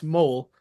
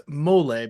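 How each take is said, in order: First: Mole said as one syllable, MOHL; one-syllable name. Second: Mole said as MOH-lay; two-syllable name. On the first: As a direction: say Mole with a silent final e. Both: Shown as a demonstration. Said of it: "let me know if I'm saying it right".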